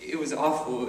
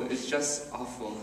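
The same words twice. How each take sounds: First: Said in the usual way. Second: "just" leaned on, the whole line dropped much softer; softer repeat. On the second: Acted. [name] recalling the school hallways, repeating it much softer. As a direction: let "just awful" sink away, softer.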